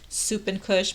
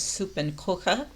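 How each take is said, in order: First: The last part ends in an sh sound. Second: The last part ends in a kh sound. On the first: The speaker calls it wrong. "I kept saying it incorrectly" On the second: The speaker calls it right. "now it's uh, pronounced, I guess"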